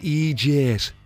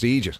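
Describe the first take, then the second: First: It is said in an exaggerated American-style accent. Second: It is said in a plain Irish accent. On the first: The speaker calls it wrong. "they kind of pronounce it in a sort of a funny way" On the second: The speaker calls it right. "Irish people say Egypt and it's just Egypt"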